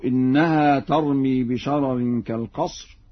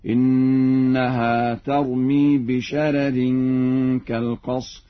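First: Said in the usual way. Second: Slow chant, light first r in "بشرر"; thinned first ra. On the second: Shown as a demonstration. Teacher demonstrates Warsh's reading, slow chant with a light r in "بشرر". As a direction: keep the first r of "بشرر" thin, towards bisharerin. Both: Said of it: "بترقيق الراء الأولى".

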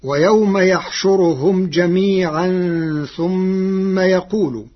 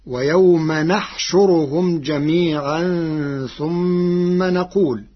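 First: يحشرهم and يقول begin with ya; ويوم يحشرهم recited higher and slower; recited citation. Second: نحشرهم and نقول begin with nun; نحشرهم and نقول said in Warsh's way; Warsh reading. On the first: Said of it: "قرأ ورش كلمتي". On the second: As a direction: start نحشرهم and نقول with a clear n. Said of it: "بنون العظمة". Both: Shown as a demonstration.

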